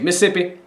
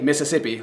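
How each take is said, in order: First: A middle syllable is dropped, like Missippi. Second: All syllables of the word are pronounced fully. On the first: This is how locals say the name. "You say Mississippi. ... That's just M I S S I P I" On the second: This is how outsiders say the name. "you don't say Mississippi like I'm saying it"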